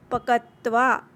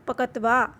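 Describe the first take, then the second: First: पकत्वा with the half k run quickly into tva; teacher demo of पकत्वा; half letter spoken fast. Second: पकत्वा said softly, the half letter run quickly; soft teacher take of पकत्वा. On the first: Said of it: "आधे अक्षर हैं तो फास्टली बोलते हैं". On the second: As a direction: say पकत्वा gently, not hard. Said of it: "soft voice". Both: Shown as a demonstration.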